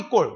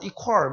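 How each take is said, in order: First: It is said with a tense 'kk' and clipped end. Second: It is said close to English 'equal'. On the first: It reflects an older habitual pronunciation. "저희 때만 하더라도 이꼴 이꼴" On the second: It reflects a newer, more careful pronunciation. "발음이 좋아서 뭐 이퀄 뭐 이렇게 발음하시나 봐요"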